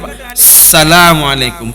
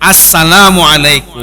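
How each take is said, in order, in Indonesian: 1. Bunyi artikel di awal dihilangkan. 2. Bunyi artikel di awal jelas diucapkan. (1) "Kita enggak alif" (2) "Yang benar kan begini"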